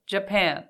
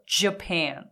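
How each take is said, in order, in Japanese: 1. Jは柔らかく、息はあまり出しません。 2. Jは強く、息を前に出します。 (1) "Japan じゃなくて" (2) "このJ の音が大切。"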